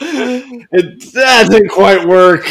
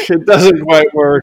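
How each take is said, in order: First: Laughing. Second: Said in the usual way. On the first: Real, not acted. Laughing at own limerick.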